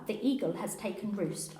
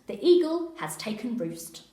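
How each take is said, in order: First: Mild walkie-talkie code talk; just a hint of police radio jargon; lightly voiced radio code. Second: Louder repeat of the radio code. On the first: Officer reporting in code, lightly voiced radio talk. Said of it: "why you're speaking like that". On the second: Acted. Officer repeating his coded report, louder radio talk. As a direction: say it again, firmer and louder. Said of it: "I repeat".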